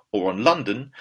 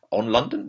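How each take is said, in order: First: Said in the usual way. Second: LONDON lifted into a question; self-questioning. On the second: Real, not acted. Puzzled host checking his own wording, questioning rise on LONDON. Queries own wrong preposition.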